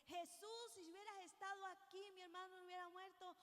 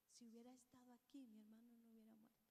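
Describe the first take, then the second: First: Marta's manner. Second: Softer and quick, bowed down; humble and lowly. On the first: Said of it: "pero distinta manera". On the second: Preacher voicing María at Jesus' feet, softer and humbled. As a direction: say it low and humbled, as if prostrate at his feet. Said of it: "con una postura diferente". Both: Retold or imitated.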